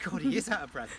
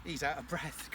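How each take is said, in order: First: Breaking into a laugh, louder; chuckling at the puffing ram. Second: Said in the usual way. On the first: Real, not acted. Laughing at the breathless ram to the camera. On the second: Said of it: "That's why he's out of breath".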